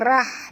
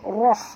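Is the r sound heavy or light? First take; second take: light; heavy. First: The r sound is light with an open a. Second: The r sound is heavy with a rounded vowel. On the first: The speaker calls it wrong. "jangan baca rah" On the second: The speaker calls it right. "ra tebal, tapi baca roh"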